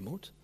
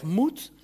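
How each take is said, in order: First: Moet barely breathed, much softer; dropped must. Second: A firm, pushing command word; demanding must. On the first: Preacher showing he no longer says it, fading softly. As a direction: let the word Moet fall away quietly. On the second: Preacher showing the judging word to his congregation, firm. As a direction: say Moet as a pressing order. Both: Shown as a demonstration. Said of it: "dus ik zeg niet meer".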